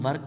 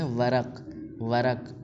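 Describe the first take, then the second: First: ورق as "varq", no second vowel; mistaken Urdu-style pronunciation. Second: ورق as "varaq", two syllables; Persian pronunciation. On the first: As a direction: say ورق with r and q joined. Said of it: "غلط ہے". (ورق کو "وَرْق" بولیں، ایک ہی رکن میں) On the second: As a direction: say ورق with a vowel after the r. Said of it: "وہ فارسی والے کو کیا بولتے ہیں". (ورق کو "وَرَق" بولیں، ر پر زبر) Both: Shown as a demonstration.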